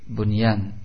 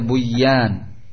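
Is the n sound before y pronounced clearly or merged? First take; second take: clear; merged. First: The n sound is clearly pronounced before y. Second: The n sound is merged into the y. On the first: The speaker calls it right. "sehingga dibaca dengan idhar" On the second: The speaker calls it wrong. "tidak boleh dibaca buyan"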